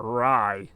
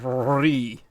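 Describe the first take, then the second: First: "rye" said with the English long I; "rye" pronunciation. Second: "re" drawn out with an ee vowel; stretched "re". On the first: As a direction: say "rye" as in rye bread, lower. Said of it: "Like rye bread". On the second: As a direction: say "re" long, rhyming with "see". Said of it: "I didn't say re". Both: Shown as a demonstration.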